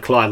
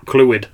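First: "Clyde" said as the English name, one syllable, klide; mispronounced Welsh name. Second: "Clwyd" said as two syllables, kloo-id, with a falling tune; Welsh pronunciation. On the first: Reading a Welsh place name at work, "Clyde" said the English way. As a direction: say "Clyde" rhyming with "ride". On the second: Correcting himself on a Welsh place name, "Clwyd" said kloo-id. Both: Shown as a demonstration. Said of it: "like, Cl-, Clwyd".

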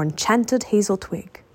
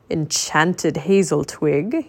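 First: Said in the usual way. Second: Surprised. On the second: Acted. Merlin questions Teddy's words.

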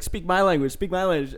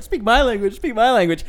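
First: Lightly voiced, a bit higher, insistent demand; demanding kid. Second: Higher, louder mocking parrot; mocking echo. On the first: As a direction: repeat the demand like an annoyed bully. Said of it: "and he was like". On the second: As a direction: throw his words back at him, teasing. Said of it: "And I was just like".

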